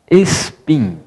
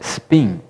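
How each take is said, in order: First: The word is said with Portuguese-style pronunciation. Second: The word is said with English pronunciation. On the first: "Eu pronunciei spin porque aportuguesei a palavra" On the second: "Em inglês se pronuncia spin"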